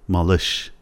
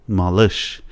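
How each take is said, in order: Both takes have the same delivery.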